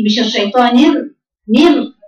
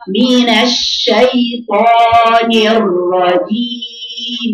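First: الر- clipped short, then a quick thin نر; wrong ra demo. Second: الرجيم recited extremely slowly with a doubled, heavy ra; correct ra demo. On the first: Teacher imitating a student's wrong ra so the class can hear the contrast. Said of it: "ليه نر يا بنتي؟". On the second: Teacher showing the right way to recite the doubled ra, very slowly. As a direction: hold the ra in الرجيم, then release it clearly, very slowly. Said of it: "ازاي اقراها صح؟". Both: Shown as a demonstration.

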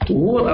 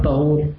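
First: طهور said "tuhur", u in first syllable; damma on first letter. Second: طهور said "tahur", a in first syllable; fatha on first letter. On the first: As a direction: say طهور with a short u after the ط. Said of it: "بالضم؟". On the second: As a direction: say طهور with a short a after the ط. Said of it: "لما لا تكون بالفتح؟". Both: Shown as a demonstration.

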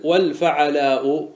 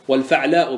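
First: Slow والفعلاء as wal-fa'alaa'u; vowel on the ain. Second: والفعلاء as wal-fa'laa'u; silent-vowel ain. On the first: Real, not acted. Teacher misreading the verse, vowelled ain in والفعلاء. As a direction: put a short a after the ain in والفعلاء. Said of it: "عفوًا، والفعلاء بسكون العين". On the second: Shown as a demonstration. Teacher correcting himself, sukun on the ain of والفعلاء. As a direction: close the syllable on the ain in والفعلاء, no vowel after it. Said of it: "بسكون العين".

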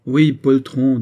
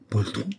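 First: Loud, higher confirmation of the taunt; raised-voice jeer; insistent insult. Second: Taken-aback echo of the insult; understated indignant query; stung disbelief. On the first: Acted. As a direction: throw the insult back forcefully. Grenadier flings the insult back. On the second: A narrator's reading. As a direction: repeat the insult as a restrained question. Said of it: "s'écria Frédéric, qui devint pourpre".

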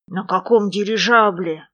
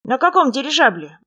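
First: Understated dismay; crestfallen. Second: Higher-pitched prompting question; raised voice, asking on the side; covert question. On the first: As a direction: question in a fallen voice. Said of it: "упавшим голосом спросил медвежонок". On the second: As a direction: lean in and ask your small companion. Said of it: "будто поправляя поводок, склонился". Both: A narrator's reading.

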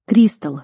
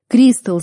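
First: Said in the usual way. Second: «Кристал» shouted higher and louder. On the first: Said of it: "замер я". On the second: A narrator's reading. Hero screams at his unconscious beloved, loud. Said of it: "закричал громче".

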